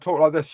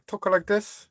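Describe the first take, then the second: First: It is spoken in a British accent. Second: It is spoken in a Chinese accent. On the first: "If I was British, yeah, I'd talk like this" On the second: "if I'm from the China, I talk like this"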